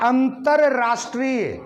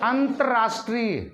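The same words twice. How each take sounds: First: Both r sounds are pronounced in full. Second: The first r is reduced to a half sound. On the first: "मैं दोनों रह का प्रयोग कर रहा हूं बोलते हुए।" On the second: "अब आप रै की पूरी आवाज नहीं सुन रहे मेरे मुंह से।"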